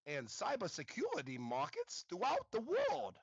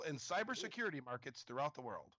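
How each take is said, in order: First: The R sounds are pronounced like W sounds. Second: The R sounds are pronounced as normal R sounds.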